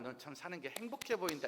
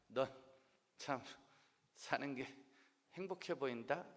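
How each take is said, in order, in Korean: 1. 보통 속도로 말했어요. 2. 아주 천천히 말했어요. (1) "이게 아니라" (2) "아주 느린 말투"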